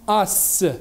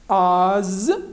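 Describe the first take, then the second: First: The consonant is a hissing s sound. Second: The consonant is a buzzing z sound. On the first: The speaker calls it wrong. "et non pas S" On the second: The speaker calls it right. "ça se prononce Z"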